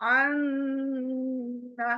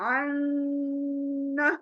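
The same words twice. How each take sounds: The two takes are said the same way.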